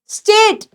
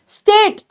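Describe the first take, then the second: No difference in how they are said.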